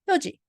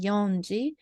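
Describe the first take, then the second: First: No n sound comes before ji. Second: An n sound comes before ji. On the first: The speaker calls it right. "We pronounce as yoji" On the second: The speaker calls it wrong. "we don't say yonji"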